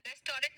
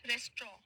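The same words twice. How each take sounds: First: "रेस्टोरेंट" as res-to-rent, with final t; wrong pronunciation. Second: "रेस्ट्रॉ" as res-traw, final t silent; correct pronunciation. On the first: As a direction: sound all three syllables of "रेस्टोरेंट". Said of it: "नहीं बोला है". ("रेस्टोरेंट" का गलत, पूरा उच्चारण) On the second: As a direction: say "रेस्ट्रॉ" in two syllables ending in "straw". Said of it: "रेस्टोरेंट नहीं बोला है". ("रेस्ट्रॉ" का सही उच्चारण, अंत में स्ट्रॉ) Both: Shown as a demonstration.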